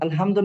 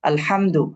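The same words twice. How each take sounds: First: The h is light, with no throat pressure. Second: The h is pressed from the throat. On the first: The speaker calls it wrong. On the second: The speaker calls it right.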